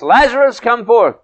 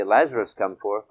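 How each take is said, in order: First: High, loud shouted command; shouting out a summons. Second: Said in the usual way. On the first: Retold or imitated. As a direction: call it out loudly, high-pitched, as if summoning someone. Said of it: "he shouts". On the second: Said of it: "if he didn't say".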